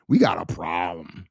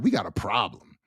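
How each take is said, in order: First: Very low, whispery threat; menacing warning. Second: Said in the usual way. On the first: Acted. Father warning anyone who talks to his child, menacing.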